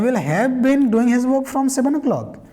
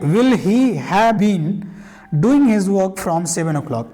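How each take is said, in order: First: It is spoken quickly with words run together. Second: It is spoken slowly, word by word. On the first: "practice करेंगे तो आप ऐसे बोल सकते हैं" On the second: "इतना धीरे धीरे बोल रहे हैं कि आपको समझ में आए"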